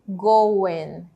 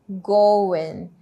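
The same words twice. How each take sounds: The two takes are said the same way.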